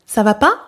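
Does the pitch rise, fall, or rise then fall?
rise. The pitch rises at the end.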